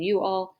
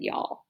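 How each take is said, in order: First: Said in the usual way. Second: Southern "y'all" as one syllable. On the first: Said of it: "instead of saying". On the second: Shown as a demonstration. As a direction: run it together into Southern "y'all". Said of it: "talking Southern style".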